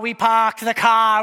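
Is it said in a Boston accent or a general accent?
Boston. It is said in a Boston accent.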